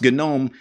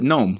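First: The initial G is pronounced. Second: The initial G is silent. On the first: It honors the project it comes from. "they wanted GNOME pronounced GNOME in deference to GNU" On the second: It is said like the dictionary word. "A silent G"

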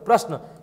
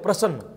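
First: The word is said with the standard pronunciation. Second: The word is said with a regional pronunciation. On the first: The speaker calls it right. "इसको सही क्या बोलते हैं अपन" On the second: The speaker calls it wrong. "लेकिन कुछ लोग इसको क्या बोलते हैं"

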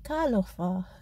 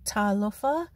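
First: The word begins with a k sound. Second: The word begins with a t sound. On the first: This is the informal way of speaking. "an informal sounding k" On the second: This is the formal way of speaking. "in formal Samoan, they will use the T sound"

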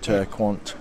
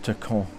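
First: The name is read with English pronunciation. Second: The name is said with French pronunciation. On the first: The speaker calls it wrong. "It's spelled in English, you'd say it Turquant" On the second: The speaker calls it right. "it's pronounced Turquant"

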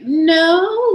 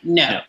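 First: A hesitant no rising like a question. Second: A flat, decisive no that closes off. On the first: Maybe; I am not sure. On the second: Stop; this is a real refusal.

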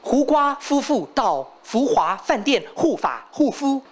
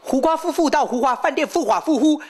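First: It is said at a slower pace. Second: It is said at a faster pace.

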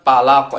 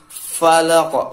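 First: It begins with a p sound, without breath. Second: It begins with a breathy f sound. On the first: The speaker calls it wrong. "jadi bukan palaq" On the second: The speaker calls it right. "fanya ada hamas sedikit, ada angin keluar sedikit"

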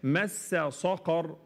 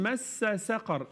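First: The second word starts with a heavy, emphatic s. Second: The second word starts with a light, thin s. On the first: The speaker calls it right. "صَقَر ص ق ص مش س" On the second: The speaker calls it wrong. "فما حدش يقول مَسّ سَقَر، سَقَر س بالس لأ"

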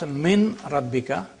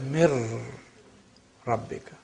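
First: The n is pronounced clearly before the r. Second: The n disappears and becomes a doubled r. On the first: The speaker calls it wrong. "So you don't pronounce min rabbika" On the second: The speaker calls it right. "you say mir rabbika"

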